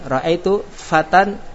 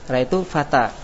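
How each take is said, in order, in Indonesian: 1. Kata terakhir berakhir dengan bunyi n. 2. Kata terakhir berakhir dengan vokal panjang. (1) "Ketika wasal baca fatan" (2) "ketika antum waqafnya di fatan maka antum baca ra'aitu fata"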